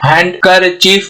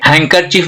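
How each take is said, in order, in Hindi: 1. k से पहले d ध्वनि सुनाई देती है। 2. k से पहले कोई d ध्वनि सुनाई नहीं देती। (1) "नहीं बोलेंगे" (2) "बोलेंगे"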